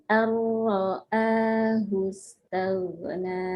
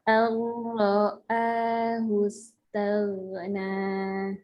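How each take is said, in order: The two takes are said the same way.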